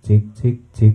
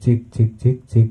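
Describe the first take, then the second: Both takes have the same delivery.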